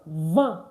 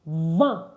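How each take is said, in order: No difference in how they are said.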